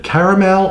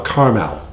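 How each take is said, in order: First: "caramel" in three syllables, care-a-mel. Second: "caramel" in two syllables, car-mel. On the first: Asking co-host which way to say it, three-syllable "caramel". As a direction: sound out the middle A in "caramel". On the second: Offering co-host the other way, two-syllable "caramel". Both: Shown as a demonstration. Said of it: "So is it caramel or caramel".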